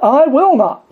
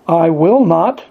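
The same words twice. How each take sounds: First: "I will not" high and loud, "will" hit hardest; peak of the build. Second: Said in the usual way. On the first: Acted. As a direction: climb to the top on "will". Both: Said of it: "he said it three times".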